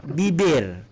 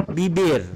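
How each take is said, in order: The two takes are said the same way.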